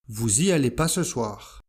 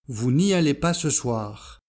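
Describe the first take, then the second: First: The negative 'ne' is dropped entirely. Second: The negative 'ne' is clearly pronounced. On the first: This is the casual spoken form. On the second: This is the careful standard form.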